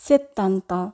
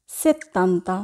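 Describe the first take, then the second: No difference in how they are said.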